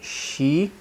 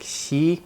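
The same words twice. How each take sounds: First: The sh is made with a bent-back tongue. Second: The sh is made with a flat tongue. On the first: "In English, it's bent up, bent back" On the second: "your tongue is kind of flat like this"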